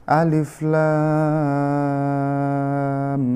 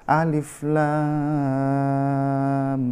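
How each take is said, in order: The two takes are said the same way.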